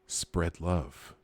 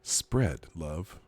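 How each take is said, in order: First: It is said plainly, with neutral emphasis. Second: It is said suggestively, with altered emphasis.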